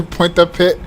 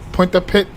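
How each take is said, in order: The two takes are said the same way.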